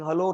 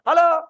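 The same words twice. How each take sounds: First: The word is said quietly. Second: The word is shouted loudly. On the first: The voice travels the same without shouting. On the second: The caller thinks shouting helps reach a faraway friend. "shouting bigger"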